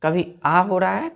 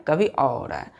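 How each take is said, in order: First: आ as a long open "aa", tune rising; open "aa" vowel. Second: अ as a rounded "aw", lower falling tune; rounded "aw" vowel. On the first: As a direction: stress आ, open as in "car". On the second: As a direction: say अ like the vowel in "all". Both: Shown as a demonstration. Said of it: "ए का जो pronunciation है".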